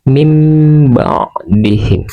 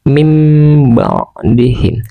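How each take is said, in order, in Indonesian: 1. Bunyi sengau sebelum b terdengar seperti m. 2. Bunyi sengau sebelum b terdengar seperti m.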